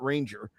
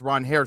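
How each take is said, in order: First: The name sounds like the English word 'ranger'. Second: The name sounds like 'ron-hair' with a soft h. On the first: The speaker calls it wrong. "not Ranger" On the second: The speaker calls it right. "Only finding out now it's Ronher Suarez"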